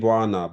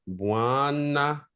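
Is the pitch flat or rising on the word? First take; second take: flat; rising. First: The pitch stays flat, with little force. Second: The pitch rises, with more force. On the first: The speaker calls it wrong. "I'm saying Buana" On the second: The speaker calls it right. "I hear almost a rise ... a little more oomph to it"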